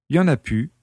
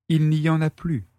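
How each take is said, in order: First: The last word is reduced to pu, without l. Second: The last word is said in full as plu. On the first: This is casual, familiar speech. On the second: This is standard, careful speech.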